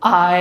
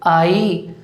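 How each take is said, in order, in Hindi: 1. यह छोटी य ग्लाइड से खत्म होता है। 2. यह लंबी ई स्वर से खत्म होता है। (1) "करेक्ट प्रोनाउंसिएशन?" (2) "क्या बोलते हैं आप इसे?"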